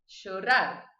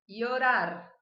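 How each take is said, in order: First: The ll is said with an Argentine accent. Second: The ll is said like an i sound. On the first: "da Argentina e do Uruguai" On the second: "essa seria a pronúncia que eu adoto"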